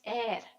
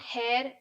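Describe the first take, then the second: First: The word begins with no h sound. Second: The word begins with an h sound. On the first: The speaker calls it right. "the H is silent" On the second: The speaker calls it wrong. "It's not hair"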